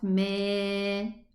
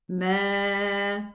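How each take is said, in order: First: The vowel slides toward an 'e' sound. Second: The vowel is an open 'a' sound. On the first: The speaker calls it wrong. "not me" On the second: The speaker calls it right. "open the empty space of the mouth, and try to say ma"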